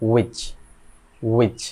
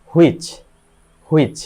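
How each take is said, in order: First: উইচ said "wich", no h; correct pronunciation. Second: হুইচ said "hu-ich", h loud at the front; habitual mispronunciation. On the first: Teacher models it for learners, h-less উইচ. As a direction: begin উইচ on the w, one short syllable. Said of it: "এটা সঠিক উচ্চারণ হবে". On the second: Teacher shows how learners say it, h-initial হুইচ. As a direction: lead হুইচ with a sounded "hu". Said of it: "এটার উচ্চারণ আমরা করি". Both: Shown as a demonstration.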